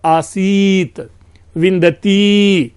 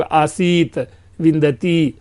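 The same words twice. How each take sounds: First: आसीत and विंदती with vowels held long; drawn-out Vedic pluta reading; pluta vowels stretched. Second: Said in the usual way. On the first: Shown as a demonstration. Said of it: "तीन कालात्मक जो है". (प्लुत स्वर खींचकर बोलना) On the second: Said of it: "सामान्य दीर्घ में हम लोग".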